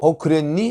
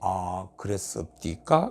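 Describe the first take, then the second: First: It is said plainly at a normal pace. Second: It is said slowly with drawn-out words.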